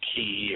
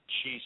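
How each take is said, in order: First: The word begins with a 'k' sound. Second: The word begins with a 'ch' sound. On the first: "some people pronounce it ki" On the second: "C H I looks like chi to me"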